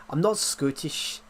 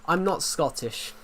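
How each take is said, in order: First: Slow, drawn-out Scottish accent; put-on Scots, unhurried. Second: Said in the usual way. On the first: Shown as a demonstration. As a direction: say it with a Scottish accent, stretching the vowels. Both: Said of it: "I can do the accent though".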